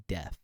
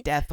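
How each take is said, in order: First: Said in the usual way. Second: "deaf" with a final TH, as in "death"; "deaf" slipped into "death"; mispronounced as death. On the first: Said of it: "meant to say deaf". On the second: Shown as a demonstration. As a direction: end "deaf" on TH, not F. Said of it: "I said deaf when I meant".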